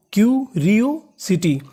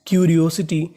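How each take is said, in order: First: curiosity stretched out slowly, syllable by syllable. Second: Said in the usual way. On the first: Shown as a demonstration. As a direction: model curiosity slowly for the class. (Curiosity को बहुत धीरे, टुकड़ों में बोलें) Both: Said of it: "तो पूरी meaning".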